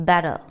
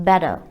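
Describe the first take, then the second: Both takes have the same delivery.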